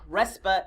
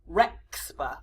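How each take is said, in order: First: The middle sound is a plain s. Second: The middle sound is a ks cluster.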